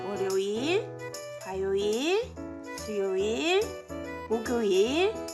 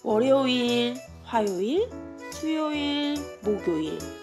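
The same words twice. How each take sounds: First: The days are counted more slowly. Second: The days are counted at a normal pace.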